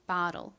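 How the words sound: It is said with an American accent. "미국식 발음은"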